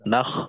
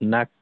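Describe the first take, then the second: First: The syllable ends in a rasping kh sound. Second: The syllable ends in a crisp k stop. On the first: The speaker calls it wrong. "এমন যেন না হয়" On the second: The speaker calls it right. "কাফকে স্পষ্ট করা নাক"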